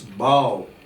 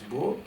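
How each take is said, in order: First: It is pronounced the way the bending word sounds. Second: It is pronounced the way the weapon word sounds. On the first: It means bending the head down. "to bow down, to bend our head, then it is pronounced as bow" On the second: It names the weapon used with arrows. "When it is that bow, we pronounce it as bow"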